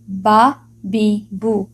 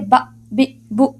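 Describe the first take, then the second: First: Each syllable is said smoothly without a jolt. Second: Each syllable is cut off with a jolt. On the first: The speaker calls it right. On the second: The speaker calls it wrong.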